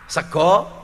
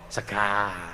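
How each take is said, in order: First: It is said in Javanese with an O vowel. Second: It is said in Ngapak with an A vowel.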